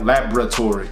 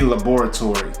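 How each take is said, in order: First: The 'bor' syllable loses its vowel, sounding like 'br'. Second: The 'bor' syllable is said with its full vowel. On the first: This is how the speaker normally says it. "I pronounce it like it's B R instead of B O R" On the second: This is how the spelling suggests it should sound. "it actually kind of looks like it's supposed to be"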